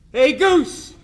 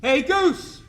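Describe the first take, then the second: First: A retold shout across the clubhouse, pitched high; calling out loud. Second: A retold high, loud shout across the clubhouse; calling out again. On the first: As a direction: holler to a teammate across the room. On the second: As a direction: yell his name across the room one more time. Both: Munson calls across the clubhouse.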